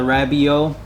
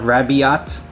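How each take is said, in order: First: The final T is silent. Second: The final T is sounded. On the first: "I'm going with the silent T at the end" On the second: "instead of Rabiat"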